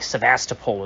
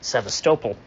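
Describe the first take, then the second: First: It is said with the British pronunciation. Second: It is said with the American pronunciation. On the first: "I think Sevastopol is what the Brits say" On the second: "more or less correct than Sevastopol"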